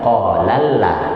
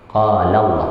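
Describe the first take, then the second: First: The L in Allah sounds light and thin. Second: The L in Allah sounds heavy and thick. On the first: The speaker calls it wrong. "bukan qalalla" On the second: The speaker calls it right. "dibuat jadi tebal lidahnya"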